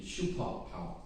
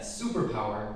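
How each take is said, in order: First: Korean-accented "shupo power" for superpower. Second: Said in the usual way. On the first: Shown as a demonstration. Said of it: "pronounced with a generic Korean accent". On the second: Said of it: "superpower would be shupo power".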